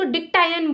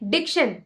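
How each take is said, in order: First: The middle of the word sounds like 'tie'. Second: The middle of the word sounds like 'sh'. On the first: The speaker calls it wrong. "तो वो तो गलत है ना" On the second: The speaker calls it right. "अभी इसको pronounce कैसे करेंगे?"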